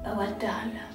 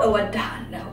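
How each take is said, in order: First: It is said in a provocative, flirty way. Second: It is said in a plain, neutral way.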